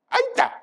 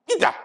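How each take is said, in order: First: "Aita" with an "eye" start, very high; eye-ta pronunciation. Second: "Ita" begun with an "ee" sound; ee-ta pronunciation. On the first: Comedian comparing ways to say "Aita", high eye-ta pronunciation. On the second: Comedian comparing ways to say "Ita", ee-ta pronunciation. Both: Shown as a demonstration. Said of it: "Am I saying it correctly?".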